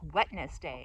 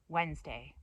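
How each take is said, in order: First: Every letter is sounded, in three syllables. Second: The middle letters are dropped, in two syllables. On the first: The speaker calls it wrong. "it's pronounced Wetness Day" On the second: The speaker calls it right. "most people say Wednesday"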